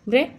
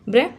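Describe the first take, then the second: No difference in how they are said.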